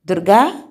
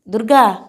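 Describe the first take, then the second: First: First call with a rising end; calling the maid. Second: Second call, higher and falling firmly; calling the maid. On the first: Kiran calling the maid from bed, rising call. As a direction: call the name out, lifting at the end. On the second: Kiran calling the maid again, urgent falling call. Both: Acted. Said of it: "పని మనిషిని పిలిచాడు".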